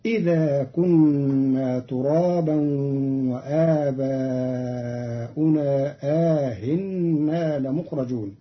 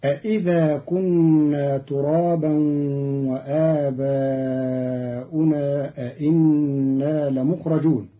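First: إذا with one hamza, آهنا with long a gliding into a softened hamza; statement idha, eased hamza. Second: أإذا and أإنا each begun with two full hamzas; two questioning hamzas. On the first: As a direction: say plain idha for إذا, then aa-hinna for آهنا. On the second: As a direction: say a-idha for أإذا and a-inna for أإنا. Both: Shown as a demonstration. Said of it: "بالإخبار في الموضع الأول".

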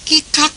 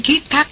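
The two takes are said the same way.

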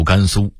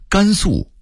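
First: 甘肃 as gānsū, 肃 level; level first tone on 肃 in 甘肃; Beijing-style 甘肃 without a falling ending; Beijing dialect reading. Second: Said in the usual way. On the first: Shown as a demonstration. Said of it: "北京话读". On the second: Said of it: "北京话读甘肃".

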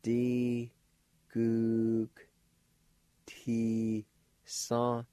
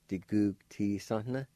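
First: "D Gug ti son" in long, separate syllables; syllable-by-syllable pronunciation. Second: "Di gug ti son" run together as one word; joined-up pronunciation. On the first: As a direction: sound out "D Gug ti son" slowly, G as K, nasalized ending. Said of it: "like this". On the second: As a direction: say "Di gug ti son" connected, with nasalized ending. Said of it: "the N sound is nasalized". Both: Shown as a demonstration.

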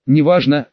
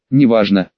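First: Said in the usual way. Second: Неважно dropped low and brushed off; dismissive. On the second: A narrator's reading. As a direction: say неважно low, waving it away. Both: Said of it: "отмахнулась от неё".

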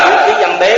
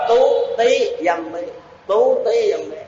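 First: "Tú Tí Dâm Bí" with Vietnamese sounds; Vietnamese reading. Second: "Tú Tí Dâm Bí" in a higher Khmer accent; Khmer reading. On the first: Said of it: "Người Việt Nam đọc là". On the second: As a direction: imitate a Khmer reader saying "Tú Tí Dâm Bí". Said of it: "Nếu mà người Khmer họ đọc là". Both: Shown as a demonstration.

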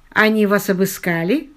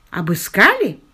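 First: Said in the usual way. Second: Sarcastic echo of the question. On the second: A narrator's reading. Albert echoes George's question about being searched, sarcastically. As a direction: throw the word back with mild sarcasm. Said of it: "саркастически переспросил Альберт".

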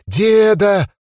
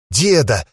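First: High shrieking cry for grandpa; panicked shout. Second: Trembling whimper. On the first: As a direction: scream it out in panic. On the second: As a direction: call out shakily, stunned. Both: Acted. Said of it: "трясся и повторял".

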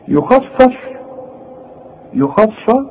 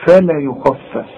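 First: Higher rising يخفف with a heavy فاء; a mock student's heavy فاء; imitated student error; student's mistaken reading. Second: فلا يخفف slow, both فاء light; corrected recitation; correct light reading. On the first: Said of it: "طب ما انت لسه قايل فلا". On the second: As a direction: keep each فاء thin. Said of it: "يبقى الفه دي زي الفه دي". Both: Shown as a demonstration.

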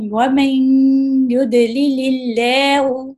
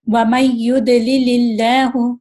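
First: Slow recitation, "وَمَن" held in a long nasal hum; with ghunna. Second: "وَمَن" cut short straight into "يُضْلِلِ", no hum; without ghunna. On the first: Teacher demonstrates ghunna, "وَمَن" slowly drawn out through the nose. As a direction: stretch the nasal join from "وَمَن" into "يُضْلِلِ". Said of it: "ہم گناہ کر کے پڑھ رہے ہیں". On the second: Teacher shows the mistake, "وَمَن" joined quickly to "يُضْلِلِ" without ghunna. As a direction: recite with no held nasal sound after "وَمَن". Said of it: "اگر میں گننے کے ساتھ نہ پڑھوں تو کیسے پڑھوں گی؟".

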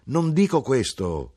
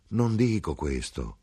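First: Higher, slower insistent third denial; third insistence. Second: Slow denial. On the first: Son to mother, insisting a third time. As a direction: press the point, questo drawn out. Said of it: "dissi io per la terza volta". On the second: Son to mother, slow steady denial. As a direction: calmly hold your ground. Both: Acted.

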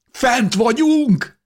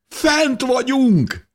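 First: High, slow, ringing cry of joy; exultant shout. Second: High, drawn-out joyful cry; exultant shout. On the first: Breaking through snow, shouting up to the stars, overjoyed. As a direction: shout it out stretching every word. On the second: Repeating the news to the diggers below, overjoyed. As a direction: call it again, leaning on Fent. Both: A narrator's reading.

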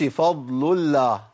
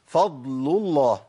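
First: الله with a thin light lam, the wrong way; mock wrong light lam in الله; light lam mistake. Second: الله with a thick lam after a damma, slow; heavy lam. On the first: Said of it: "ما ينفعش". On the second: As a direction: draw out فضل الله with a full heavy lam. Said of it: "نجيب مثال للضم". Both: Shown as a demonstration.

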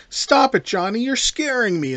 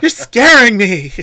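First: High-pitched mock-frightened plea; Barbara impression. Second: Loud, high, drawn-out mock wail; Barbara impression. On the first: Podcast host quoting the horror heroine, higher mock-scared voice. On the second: Podcast host redoing the heroine for laughs, hammed-up wail. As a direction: ham up the scared horror heroine, slow and loud. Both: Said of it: "your Barbara impression".

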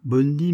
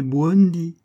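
First: "Bondi" with a simple B-on opening; "Bondi" as first misheard, without the u; mispronounced parrot word. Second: "Buondi" with a w glide after the B; "Buondi" opened as bwon, Italian style; corrected Italian pronunciation. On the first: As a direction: say "Bondi" with no w glide after the B. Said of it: "l'animal ne disait pas". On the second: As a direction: stress the corrected "Buondi", higher and louder. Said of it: "l'animal ne disait pas: «Bondi», mais «Buondi»". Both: Shown as a demonstration.

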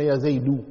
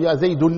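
First: "يا زيد" ending in an open -u, zaydu; damma without tanween. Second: "يا زيد" ending in an added -un, zaydun; wrong tanween ending. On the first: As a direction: end "زيد" on a long-held u with no n. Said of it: "من غير تنوين". (نطق "يا زيد" بالضم دون تنوين: زيدُ) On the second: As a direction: sound a final n on "زيد": ya zaydun. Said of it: "من غير تنوين. ما تقول". (نطق "يا زيد" بتنوين الضم: زيدٌ) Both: Shown as a demonstration.

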